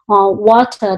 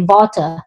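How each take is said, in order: First: The word begins with a W sound. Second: The word begins with a V sound. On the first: The speaker calls it right. "instead of saying" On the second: The speaker calls it wrong. "instead of a W sound, they say V"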